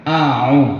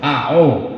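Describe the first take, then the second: First: The second vowel sounds like U. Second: The second vowel sounds like O. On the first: The speaker calls it right. "Yang betul A, A U, bukan A O" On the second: The speaker calls it wrong. "bocah-bocah kan A O ... bukan A U"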